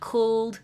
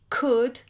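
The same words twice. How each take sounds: First: The L is pronounced in this word. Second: The L is silent in this word. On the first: The speaker calls it wrong. "It's not could" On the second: The speaker calls it right. "the L is silent"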